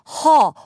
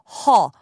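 First: The vowel is an open 'uh' from the throat. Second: The vowel is an open 'uh' from the throat.

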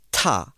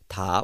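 First: The t is said with a puff of breath. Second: The t is said with little breath.

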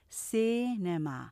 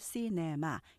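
First: The first syllable is louder and longer. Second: All syllables are even and clipped, without stress. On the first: The speaker calls it right. "앞에를 강조해서 좀 크고 길게 발음하기 때문에" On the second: The speaker calls it wrong. "그냥 액센트 없이 발음하면 스타카토로"

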